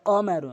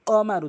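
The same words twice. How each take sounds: Both takes have the same delivery.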